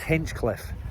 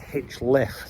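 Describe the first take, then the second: First: A k sound comes before 'liffe'. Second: No k sound comes before 'liffe'. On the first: The speaker calls it wrong. "I always just assumed the name was Hinchcliffe" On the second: The speaker calls it right. "but it's not, it's Hinchliffe. The C is missing"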